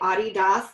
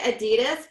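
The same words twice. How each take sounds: First: It is said with the European pronunciation. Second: It is said with the American pronunciation. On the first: This is how people in Europe say it. "a lot of people say Adidas, like in Europe" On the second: This is how it is said here. "we say Adidas"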